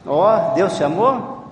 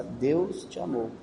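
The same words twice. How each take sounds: First: "Deus te amou" louder, drawn out, rising at AMOU; loud checking question. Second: AMOU drawn out softly after a slow DEUS; feed "Deus te amou" slowly, softer, word by word; slow dictation. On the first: Real, not acted. Checking the child heard it through the phone, loud question. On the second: Shown as a demonstration. Giving a child the line to repeat, slow dictation.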